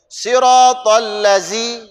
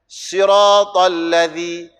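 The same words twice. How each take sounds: First: The consonant is a buzzing z sound. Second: The consonant is a soft dh sound. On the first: The speaker calls it wrong. "Dah tukar huruf" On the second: The speaker calls it right.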